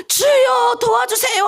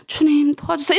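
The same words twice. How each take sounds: First: Shouted prayer. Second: Said in the usual way. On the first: Shown as a demonstration. Pastor showing the bold way to pray, shouting. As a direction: cry out to God with all your strength. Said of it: "할 거예요?". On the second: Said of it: "이렇게 할 거예요?".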